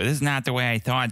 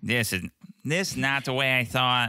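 First: The put-on voice is spoken with a lisp. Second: The put-on voice is spoken without a lisp. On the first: The speaker calls it right. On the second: The speaker calls it wrong.

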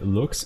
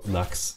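First: The vowel is an oo sound, German style. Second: The vowel is an uh sound, English style. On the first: "I kind of want to say Lux because I'm German and then the U gets pronounced like that" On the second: "the A sound would be the normal Lux"

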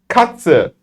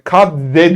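First: The tz is said as ts. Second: The tz is not said as ts. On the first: The speaker calls it right. "TS yine aynı muhabbet" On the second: The speaker calls it wrong. "kadze değil"

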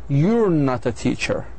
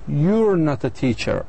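First: You are is contracted into one syllable. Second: You are is contracted into one syllable.

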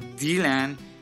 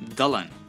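First: The name is said the way the speaker's language says it. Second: The name is said the way English speakers say it. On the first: This is how it is said in the speaker's own language. "In my language, we say Dylan" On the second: This is how it is said in English films. "as I heard from English movies and stuff, it's pronounced as Dylan"

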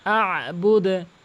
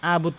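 First: The final d ends with an echoing bounce. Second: The final d stops flat with no bounce. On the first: The speaker calls it right. "আ চাপ দিয়ে বলবেন, ... বুদে বলবেন" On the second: The speaker calls it wrong. "এখানে কিন্তু আবুদ কখনোই বলবেন না"

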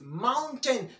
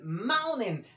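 First: The T after the N is pronounced. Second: The T after the N is silent.

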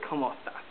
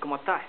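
First: It is said fully, in a standard Spanish way. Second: It is said quickly, clipped, in a Chilean way. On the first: This is how most Spanish speakers say it. "they don't say ¿Cómo estás?" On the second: This is how people in Chile say it. "They say ¿Cómo estás?"

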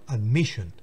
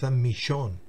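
First: The stress falls on the second syllable. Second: The stress falls off the second syllable. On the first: The speaker calls it right. "sino admission" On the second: The speaker calls it wrong. "Admission no es admission"

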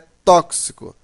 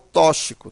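First: The x is sounded as two consonants, k plus s. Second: The x is sounded as a single consonant. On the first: The speaker calls it right. "É tóxico" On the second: The speaker calls it wrong. "e não tóxico"

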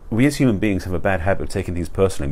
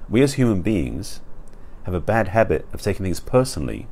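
First: The sentence is spoken at a normal, quicker pace. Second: The sentence is spoken at a slower, deliberate pace.

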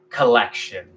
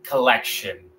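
No difference in how they are said.

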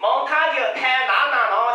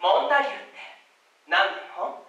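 First: The unstressed parts are said fully and strongly. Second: The unstressed parts are said short, weak and light.

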